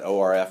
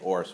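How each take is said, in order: First: Each letter is said separately. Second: It is said as a single word. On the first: "you probably pronounce it O R F" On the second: "We usually we don't pronounce the letters. We just say O R Fs"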